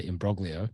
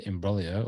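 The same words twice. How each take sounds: First: "imbroglio" with a hard g, "im-brog-lee-oh"; "imbroglio" pronounced "im-BROG-lee-oh" with a rising end; anglicised pronunciation. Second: "imbroglio" said Italian-style as "im-brol-yo", g silent; light Italian-style "imbroglio" with the gl softened to a y sound; mock Italian pronunciation. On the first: Shown as a demonstration. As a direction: say "imbroglio" the plain Aussie way, sounding the g. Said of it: "or as I like to say".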